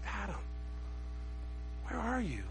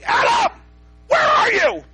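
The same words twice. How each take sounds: First: The voice sounds gentle and tender. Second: The voice sounds angry and accusing. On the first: The speaker is calling out with loving concern. The speaker calls it right. "But the heart of God, I think what God said was" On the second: The speaker is scolding in disbelief. The speaker calls it wrong. "So did God say, Adam, where are you? What have you done? I can't believe it"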